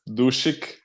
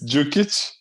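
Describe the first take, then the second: First: The surname is said in an Americanized way. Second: The surname is said in its original way. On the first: This is how people in the United States said it. The speaker calls it wrong. "they said it's Dushik" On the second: This is the real pronunciation of the name. The speaker calls it right. "It's Djukic. It's not even close"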